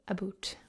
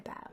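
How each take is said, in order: First: About is said with a Canadian-style vowel. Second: About is said with the familiar standard vowel. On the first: "a lot of them say about" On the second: "the way that we would uh, expect them to say about"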